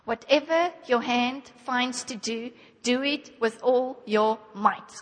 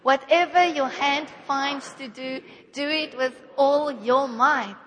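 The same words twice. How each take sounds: First: It is read in a calm, plain way. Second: It is read with more passion and energy.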